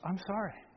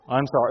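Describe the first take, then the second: First: It sounds sincere and heartfelt. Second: It sounds insincere and dismissive.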